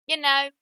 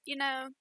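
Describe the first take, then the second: First: You know in a drawled American southern accent, "ya naw"; a quick playful southern twang on You know. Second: Said in the usual way. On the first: Shown as a demonstration. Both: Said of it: "Put on a southern accent for you".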